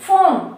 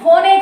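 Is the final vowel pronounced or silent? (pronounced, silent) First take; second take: silent; pronounced. First: The word ends without a vowel sound. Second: The word ends with an extra vowel sound. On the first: The speaker calls it right. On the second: The speaker calls it wrong. "ఫోనే కాదు"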